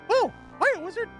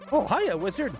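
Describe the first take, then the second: First: It is said in a Mickey Mouse voice. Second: It is said in his normal voice.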